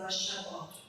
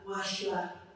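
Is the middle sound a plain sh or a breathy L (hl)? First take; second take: sh; hl. First: The middle sound is a plain sh. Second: The middle sound is a breathy L. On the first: The speaker calls it wrong. "You don't want to say" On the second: The speaker calls it right. "take off that sha and keep it shla"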